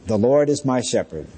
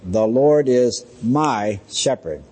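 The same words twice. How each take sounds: First: Said in the usual way. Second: Slow, with MY set apart and drawn out; stress on MY. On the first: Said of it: "is the opening statement". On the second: Retold or imitated. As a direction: lean deliberately on the word "my". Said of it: "She emphasized that word "my".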